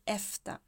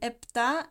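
First: The consonant before the t is an f. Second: The consonant before the t is a p. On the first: "some people say with an F" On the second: "some people say it with a P"

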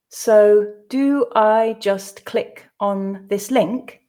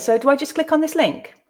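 First: The sentence is read slowly. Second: The sentence is read at natural pace. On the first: "the first time slowly for you to grasp the meaning" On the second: "read it twice more at a more natural pace"

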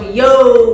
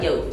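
First: It is said drawn out and loud. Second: It is said quick, smooth and cool.

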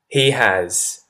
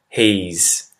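First: Two separate words, with has fully pronounced. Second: One syllable, with has reduced to an s. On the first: "I'm going to say he has" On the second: "followed by he's"

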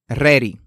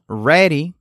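First: The R is trilled. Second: The R is a soft English R. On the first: The speaker calls it wrong. "no ready" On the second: The speaker calls it right. "Sino ready"

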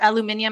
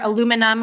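First: It is said the British way, five syllables. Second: It is said the American way, four syllables.

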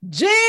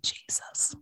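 First: It is screamed loudly. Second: It is said quietly and calmly.

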